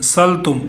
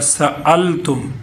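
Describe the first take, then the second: First: The word runs on with no glottal catch. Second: A glottal catch follows the 's' sound. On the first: The speaker calls it wrong. "बाज़ इसको लफ्ज़ पढ़ते हैं मा सलतुम सलतुम" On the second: The speaker calls it right. "सीन के बाद हमज़ा भी है"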